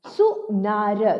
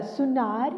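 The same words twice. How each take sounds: First: सुनार split slowly into सु and नार; syllable by syllable. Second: Said in the usual way. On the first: Shown as a demonstration. Teacher reading सुनार for children, syllable by syllable. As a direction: sound out सुनार with a gap after सु. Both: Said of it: "अब इसे पढ़ते हैं".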